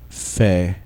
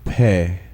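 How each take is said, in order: First: The first consonant is a soft fricative. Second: The first consonant is a hard stop. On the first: The letter has no dot inside. "first in their soft form" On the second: The letter has a dot inside. "then in the hard form with the dagesh lene"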